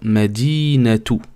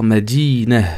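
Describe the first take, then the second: First: The word ends with a clear 'tu' sound. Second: The word ends with a soft 'h' sound. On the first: The word links to the next word. "si tu fais la liaison avec le prochain mot" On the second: The word ends the phrase with a stop. "si tu t'arrêtes sur le ta, on peut le prononcer ha"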